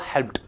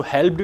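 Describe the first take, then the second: First: "हेल्प्ड" ending in a crisp t, "helpt"; teacher gives the right "हेल्प्ड" with a t sound. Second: "हेल्प्ड" said with a final d sound, the wrong way; teacher shows "हेल्प्ड" ending in d. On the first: Teacher correcting students, "हेल्प्ड" said with a final t. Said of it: "हेल्प्ड नहीं होगा, ये होगा". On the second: Teacher demonstrating the wrong d ending on "हेल्प्ड". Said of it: "हेल्प्ड नहीं होगा". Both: Shown as a demonstration.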